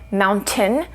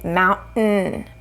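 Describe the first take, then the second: First: The T is released with a puff of air. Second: The T is stopped without releasing air. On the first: "which releases the air" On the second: "if we want to do the stop"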